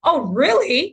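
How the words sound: It is said in an angry tone.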